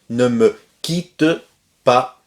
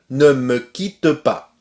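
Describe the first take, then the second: First: Quitte ends with a slight final vowel sound. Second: Quitte ends without any final vowel sound. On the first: "on peut entendre un petit peu le E final comme ici" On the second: "On ne prononce pas le E final"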